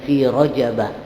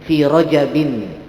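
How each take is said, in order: First: The word ends in a plain -a, no nasal. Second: The word ends in -in, with a final n. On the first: The name is treated as a word that takes no tanwin. The speaker calls it wrong. "tidak mengalami perubahan dan tidak bertanwin" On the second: The name is treated as a fully declined noun. The speaker calls it right. "dimasuki oleh tanwin ... itu yang paling fasih"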